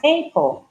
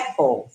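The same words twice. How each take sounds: First: The first vowel is pronounced like 'ay'. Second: The first vowel is a short open 'a'. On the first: The speaker calls it wrong. "toda vez que vê um A, falar EI" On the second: The speaker calls it right. "ela é Apple"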